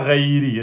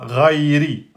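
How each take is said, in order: First: The first R is not emphatic, with an 'e' color. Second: The first R is moderately emphatic, with an 'a' color. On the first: "c'est pas reiri, ré, ok? Donc ré, c'est pas bon" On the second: "Soit vous l'emphatisez moyen, ça fait ra"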